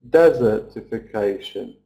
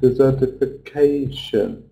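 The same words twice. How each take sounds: First: The main stress falls on the first syllable. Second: The main stress falls on the 'ca' syllable. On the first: The speaker calls it wrong. "So we feel like saying desertification. But we can't" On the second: The speaker calls it right. "we have to stress on the A sound"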